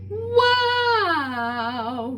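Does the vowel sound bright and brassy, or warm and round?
bright. The vowel sounds bright, wide and brassy. "wider, brassier, brighter sounds"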